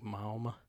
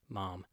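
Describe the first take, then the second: First: The vowel glides with a w sound in it. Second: The vowel is a plain open ah sound. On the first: This is a Southern way of saying it. "in the South, you got a W in there" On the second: This is the California way of saying it. "We use kind of an AH sound"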